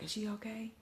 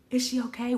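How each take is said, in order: First: High, hushed question; cousin's half-concerned check. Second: High, loud worried question; alarmed onlookers. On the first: Cousin checks on her after the bang, hushed high question. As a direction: ask it small and high, under the breath. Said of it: "concerned like that". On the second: Onlookers react to her hitting the glass, high alarmed question. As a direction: imitate a startled crowd checking on someone. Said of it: "everybody behind me like". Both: Retold or imitated.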